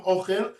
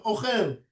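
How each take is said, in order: First: "ochel" stressed on the first syllable, O-chel; mil'el stress. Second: "ochel" stressed on the last syllable, o-CHEL; mil'ra stress. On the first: Teacher citing the verses, "ochel" with first-syllable stress. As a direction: lean on the O of "ochel". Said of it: "assume they're all mil'el". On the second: Teacher citing the verses, "ochel" with final stress. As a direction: land on the end of "ochel". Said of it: "or assume they're all mil'ra". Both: Shown as a demonstration.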